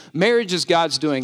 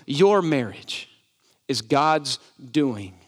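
First: Said in the usual way. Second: Your punched first, whole phrase slow; stress on your. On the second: Shown as a demonstration. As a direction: slowly lean on Your to make it personal. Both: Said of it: "Let me personalize it".

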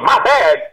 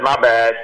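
First: Higher, louder, offended disbelief; indignant echo. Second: Said in the usual way. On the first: Retold or imitated. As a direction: throw the words back, outraged. Offended sergeant echoes the apology. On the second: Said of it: "you were actually really polite and calm".

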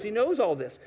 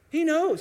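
First: Said in the usual way. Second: "He knows" much higher and louder, with a hard punch on "knows"; a preacher's sudden emphatic "He knows". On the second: Acted. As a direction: punch out "He knows" high and loud. Preacher insists God knows.

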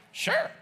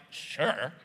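First: "Sure" leaping very high, bright; much higher happy "Sure"; eager sure. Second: Low, grudging "Sure" dropped flat; lower, unwilling "Sure"; reluctant sure. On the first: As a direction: say "Sure" with real delight. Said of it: "Or is it like". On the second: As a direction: say "Sure" as if you don't mean it. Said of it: "Is it like". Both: Retold or imitated.

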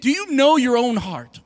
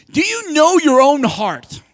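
First: Said in the usual way. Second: Slow and louder, leaning on know; earnest emphasis. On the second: Shown as a demonstration. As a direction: press each word home, slowly. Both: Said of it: "I really mean it".

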